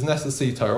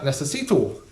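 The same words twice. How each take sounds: First: Necesito with a clean Spanish final o. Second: Necesito with a flat Northern English final oh. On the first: Comic showing the proper Spanish necesito. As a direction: necesito ending in a crisp pure o. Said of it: "learning Spanish in a Northern English accent". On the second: Comic mocking his own Northern English Spanish. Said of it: "I've been saying that". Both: Shown as a demonstration.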